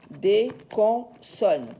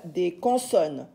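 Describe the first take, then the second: First: "des consonnes" split as des, con, sonnes; syllable by syllable. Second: Said in the usual way. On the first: Shown as a demonstration. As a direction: pause between each syllable of "des consonnes". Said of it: "Nous les appelons". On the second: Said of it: "s'appellent des consonnes".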